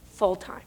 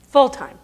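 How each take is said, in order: First: Said in the usual way. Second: "Full-time" punched much higher and louder, falling; stressed repeat. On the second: Shown as a demonstration. Speaker echoing the survey to the audience, loud incredulous stress. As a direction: hit "Full-time" hard, like disbelief.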